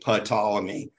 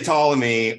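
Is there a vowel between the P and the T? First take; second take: yes; no. First: A vowel is inserted between the P and the T. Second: The P is silent and the word starts with T. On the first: "we add a vowel sound between the P and the T" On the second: "We just say Ptolemy"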